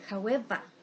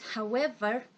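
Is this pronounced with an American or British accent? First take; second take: British; American. First: It is said with a British accent. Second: It is said with an American accent. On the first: "in British English, the pronunciation of this word is however" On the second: "in American English, uh, we pronounce however"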